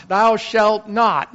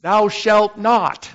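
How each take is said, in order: First: Slow, weighty, stress on Thou; stern commandment, stress on Thou; emphatic decree. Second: Slow, weighty, stress on shalt; stern commandment, stress on shalt; emphatic decree. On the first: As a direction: lean on "Thou" in "Thou shalt not". Repeated with stress moved. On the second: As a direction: land hard on "shalt" in "Thou shalt not". Mocking the commandments' no. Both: Retold or imitated.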